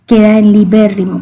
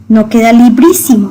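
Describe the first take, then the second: First: "libérrimo" with a rolled double r, "li-bé-rri-mo"; correct form. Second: "librísimo" as the form that is wrong. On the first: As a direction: give "libérrimo" as the right answer. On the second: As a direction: present "librísimo" as the mistake. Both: Shown as a demonstration.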